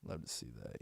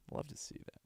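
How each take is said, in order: First: Said in the usual way. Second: Breathy unvoiced whisper. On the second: Real, not acted. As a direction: whisper it under your breath. Whispered repeat.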